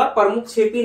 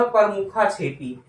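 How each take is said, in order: First: प्रमुख छेपी with प्रमुख ending on a consonant; wrong pronunciation. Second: प्रमुखा छेपी with an added long "aa"; correct pronunciation. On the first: Teacher rejecting the faulty word, "pramukh chhepi". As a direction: end प्रमुख on "kh" before छेपी. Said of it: "नहीं होगा". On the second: Teacher giving the answer, "pramukhaa chhepi". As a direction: sound the final "aa" of प्रमुखा before छेपी. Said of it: "ये होगा". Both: Shown as a demonstration.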